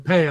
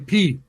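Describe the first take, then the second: First: The name is said with an 'ay' vowel. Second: The name is said with an 'ee' vowel.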